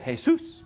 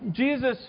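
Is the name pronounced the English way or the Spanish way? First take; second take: Spanish; English. First: The name is said with Spanish pronunciation. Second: The name is said with English pronunciation.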